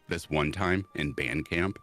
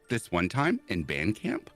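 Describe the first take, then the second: First: It is said in the speaker's natural voice. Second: It is said in a put-on character voice.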